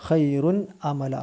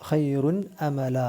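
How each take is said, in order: No difference in how they are said.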